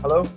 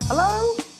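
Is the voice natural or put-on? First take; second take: natural; put-on. First: It is said in a natural everyday voice. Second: It is said in a put-on character voice. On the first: "All right" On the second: "Don't do the voice"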